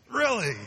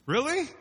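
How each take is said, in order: First: High, loud falling really; flat disbelief. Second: High, loud disbelieving rise; incredulous really. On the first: Preacher to congregation, falling incredulous really. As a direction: drop it down in disbelief. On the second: Preacher to congregation, incredulous high question. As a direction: pitch it way up in disbelief. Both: Real, not acted.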